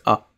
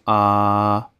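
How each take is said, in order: First: The vowel is short and clipped. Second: The vowel is held long and drawn out. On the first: The speaker calls it wrong. "Pas juste A" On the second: The speaker calls it right. "vraiment le son A prolongé comme ça"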